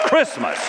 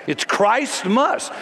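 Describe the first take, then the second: First: Said in the usual way. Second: Christmas said slowly as "Christ-mus", first syllable like the name Christ; stress on CHRIST. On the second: Shown as a demonstration. Preacher proudly insisting on the word, Christmas stretched as Christ-mus. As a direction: pull Christmas apart into Christ and mus, higher. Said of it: "I hope you'll say it".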